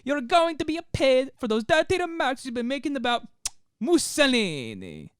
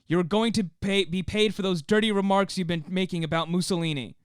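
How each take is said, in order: First: It is said in an Italian accent. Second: It is said in an American accent.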